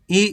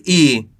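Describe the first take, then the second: First: ई said short; don't draw out the ई; quick, brief ई; short vowel. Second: ई drawn out, falling; long, held ई; long vowel. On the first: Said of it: "कम खींच के पढ़ेंगे". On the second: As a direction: stretch the ई. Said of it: "खींच के पढ़ेंगे". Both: Shown as a demonstration.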